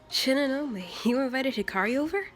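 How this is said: The voice rises at the end, like a question.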